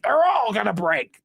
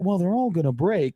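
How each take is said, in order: First: It is said in an angry tone. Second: It is said in a concerned tone.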